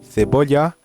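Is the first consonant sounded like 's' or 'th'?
th. The c is said with a lisped th.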